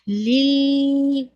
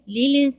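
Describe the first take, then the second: First: The l sound is held for long. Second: The l sound bounces off abruptly. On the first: "या फिर बहुत होल्ड नहीं हो" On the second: "लाम पे बाउंस नहीं हो"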